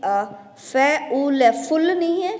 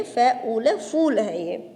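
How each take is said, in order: First: फुल with a quick short उ, shown as the wrong way; wrong short vowel. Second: फूल with the ऊ held long, said slowly; long vowel. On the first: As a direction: clip the vowel in फुल short to show the mistake. (फुल में छोटा उ, गलत उच्चारण दिखाना) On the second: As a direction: stretch the ऊ in फूल, the right way. (फूल में ऊ को खींचकर, सही उच्चारण) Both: Shown as a demonstration. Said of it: "इसको थोड़ा खींच के बोलते हैं".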